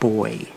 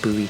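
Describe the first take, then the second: First: The word is said as one syllable, 'boy'. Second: The word is said as two syllables, 'boo-ee'. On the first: "In England, where I'm from, it's spelled the same, but it's pronounced boy" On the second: "I'll employ the American pronunciation instead"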